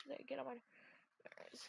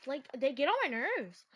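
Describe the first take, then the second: First: Barely audible annoyed mutter; muttered under breath. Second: Said in the usual way. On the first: Real, not acted. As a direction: drop it almost to nothing. Repeat of complaint, near-silent.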